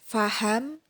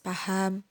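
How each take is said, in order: First: It begins with an f sound. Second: It begins with a p sound. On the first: The foreign sound is kept distinct. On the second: The foreign sound is not kept distinct.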